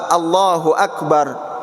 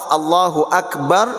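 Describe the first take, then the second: First: It stops on the final r sound. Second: The same.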